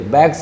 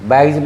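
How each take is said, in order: First: The word ends with an s sound. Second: The word ends with a z sound. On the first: The speaker calls it wrong. "बैग्स नहीं बोलना चाहिए" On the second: The speaker calls it right. "जी के बाद एस आया, जौ हो गया"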